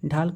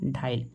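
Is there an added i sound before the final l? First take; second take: no; yes. First: A long a runs straight into l. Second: An i sound is inserted before l.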